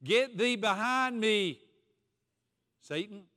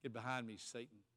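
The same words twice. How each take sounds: First: Slow, higher and louder commanding rebuke; stern rebuke. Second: Lower, much softer, almost under the breath; quiet rebuke. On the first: Jesus rebuking Peter to his face, slow stern command. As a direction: drive the words out at Peter. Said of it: "Jesus turned and said to Peter". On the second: Jesus rebuking Peter again, low and hushed. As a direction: say it low and grave, close in. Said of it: "And Jesus said". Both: Acted.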